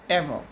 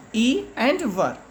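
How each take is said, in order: First: Said in the usual way. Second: "E and ver" as two separate parts; split into syllables. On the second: Shown as a demonstration. Teacher showing children two syllables, "E and ver" said in parts. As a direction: break "E and ver" apart, each syllable alone. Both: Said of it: "Ever has two syllables".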